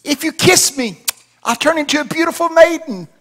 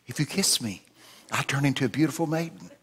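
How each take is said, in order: First: High, loud, desperate frog voice; hammed-up squealed plea; struggling little frog. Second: Quiet, gently voiced frog plea; soft frog offer. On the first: Frog in pocket repeats offer, high and loud. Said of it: "the little frog struggled and said". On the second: Frog repeats offer to old man, softly.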